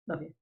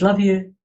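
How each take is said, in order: First: It is said quickly and dismissively. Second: It is said slowly with deep warmth.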